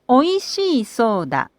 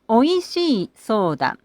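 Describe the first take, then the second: The two takes are said the same way.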